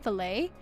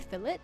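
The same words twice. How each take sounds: First: The word is said with an American pronunciation. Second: The word is said with an Australian pronunciation. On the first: "Americans say fillet" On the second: "we say fillet"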